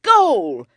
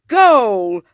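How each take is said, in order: First: Loud cry. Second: Louder cry. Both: A narrator's reading. Boys playing football with clothes.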